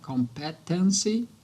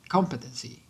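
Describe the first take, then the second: First: The stress falls on a middle or final syllable. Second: The stress falls on the first syllable. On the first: The speaker calls it wrong. "Acaba colocando a sílaba tônica ali mais pro meio ou pro final" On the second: The speaker calls it right. "a sílaba tônica seria a primeira"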